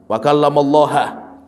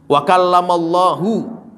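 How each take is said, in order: First: The word Allah ends with a 'ha' sound. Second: The word Allah ends with a 'hu' sound. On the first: Moses is the one who speaks. The speaker calls it wrong. "Yang aslinya hu jadinya ha" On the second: God is the one who speaks to Moses. The speaker calls it right. "bacanya harus dhammah"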